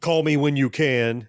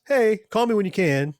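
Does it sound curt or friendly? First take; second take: curt; friendly. First: It sounds plain and curt. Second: It sounds warm and friendly.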